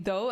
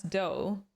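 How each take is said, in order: First: A proper English th at the start of "dough"; correct th. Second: "dough." said with a hard d in place of th; "dough." started with a d, the Swedish-accent slip. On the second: Husband's complaint about her accent, "dough." with a hard d. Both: Retold or imitated. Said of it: "you were saying "dough" as "dough".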